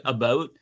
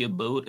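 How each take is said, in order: First: "about" with a Canadian vowel, like "a-boat"; mock Canadian "about". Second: "about" said the Canadian way, soft and low; quiet Canadian "about". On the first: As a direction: say "about" the Canadian way, rounded and clipped. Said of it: "when they say". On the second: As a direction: slip in a Canadian-style "about". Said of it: "program myself to throw in A's and say". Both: Shown as a demonstration.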